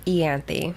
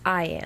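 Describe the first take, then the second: First: "Ianthe" starting with an EE sound; pronounced ee-AN-thee. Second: "Ianthe" starting with an EYE sound; pronounced eye-AN-thee. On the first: Co-host shows her own pronunciation, "Ianthe" as ee-AN-thee. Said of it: "I pronounce it". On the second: Co-host gives the apparent official pronunciation, "Ianthe" as eye-AN-thee. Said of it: "Apparently it's pronounced". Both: Shown as a demonstration.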